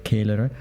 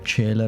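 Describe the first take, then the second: First: It is pronounced the classical Latin way. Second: It is pronounced the church Latin way. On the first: "instead of" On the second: "learn Latin in the church Latin way"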